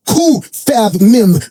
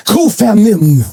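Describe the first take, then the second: First: Kufamim very slowly, syllable by syllable; careful pronunciation. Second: Said in the usual way. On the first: Shown as a demonstration. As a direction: sound out Kufamim as three drawn-out parts, Ku-fa-mim. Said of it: "I wanna get it right". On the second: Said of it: "I'm gonna read it".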